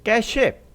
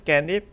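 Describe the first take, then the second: First: The second syllable begins with an s sound. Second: The second syllable has no s sound. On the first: The speaker calls it wrong. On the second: The speaker calls it right.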